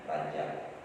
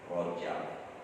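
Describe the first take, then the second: First: The first vowel is an open a sound. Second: The first vowel is a rounded o sound. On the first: This is the Indonesian form of the name. "Kalau kita Indonesia menyebutnya Rajab" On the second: This is the Arabic form of the name. "kalau dalam bahasa Arabnya disebut Rojab"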